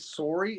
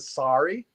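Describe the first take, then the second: First: It is said with a Canadian vowel. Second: It is said with a non-Canadian vowel. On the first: "I say sorry" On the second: "instead of sorry"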